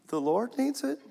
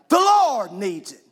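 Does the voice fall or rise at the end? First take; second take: rises; falls. First: It sounds like a question, the voice rises. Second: A confident statement, the voice falls at the end.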